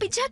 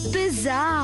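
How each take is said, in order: First: The middle consonant is a 'ch' sound. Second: The middle consonant is a 'z' sound. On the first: The speaker calls it wrong. "పిచ్చా పిచ్చా కాదు" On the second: The speaker calls it right.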